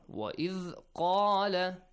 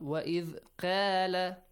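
First: The q sound is heavy and deep. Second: The q sound is light and thin. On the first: The speaker calls it right. "قَا has a heavy sound" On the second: The speaker calls it wrong.

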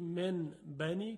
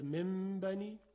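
First: An n sound comes before the b. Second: An m sound comes before the b.

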